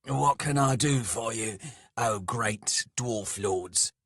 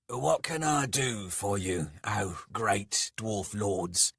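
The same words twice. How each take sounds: First: Louder, raised servile offer; emphatic humble address, slowing on the title; forced deference. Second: Mildly raised, humble offer; lightly voiced servant, slowing on the grand title; servile. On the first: A narrator's reading. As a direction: swallow the sarcasm and offer service loudly. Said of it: "bit back various sarcastic comments". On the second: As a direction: offer yourself to your masters. Skalg offers service to the lords.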